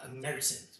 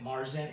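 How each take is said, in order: First: The word is said the German way. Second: The word is said the anglicized way. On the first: The speaker calls it right. "but it's uh, pronounced uh, Märzen" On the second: The speaker calls it wrong. "some people pronounce it Marzen"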